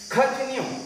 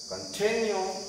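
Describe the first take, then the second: First: The stress is on the first syllable. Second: The stress is on the second syllable. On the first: The speaker calls it wrong. "Continue is not natural" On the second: The speaker calls it right. "Continue is more natural. Means after can, we have to use stress"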